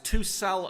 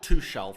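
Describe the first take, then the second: First: The middle consonant sounds like a k. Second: The middle consonant sounds like sh. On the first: The speaker calls it right. "it's Tuchel ... you don't pronounce the H" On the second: The speaker calls it wrong. "not Tuchel"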